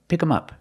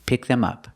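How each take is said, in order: First: The 'th' sound is dropped, leaving 'em'. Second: The 'th' sound in 'them' is pronounced.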